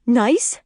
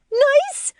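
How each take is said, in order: First: Mildly raised, indignant questioning echo; incredulous echo. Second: Very high, rising screech. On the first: Lori echoing her husband, incredulous and indignant. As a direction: throw the word back as a question. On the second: Lori outraged at her husband's word, incredulous screech. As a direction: screech it back in disbelief. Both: A narrator's reading. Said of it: "she screeches".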